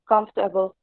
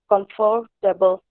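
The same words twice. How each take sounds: First: It is reduced to fewer than four syllables. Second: Every letter is sounded, giving four syllables. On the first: The speaker calls it right. "it should be pronounced as comfortable" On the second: The speaker calls it wrong. "according to the spellings, it will come out to four syllables like comfortable"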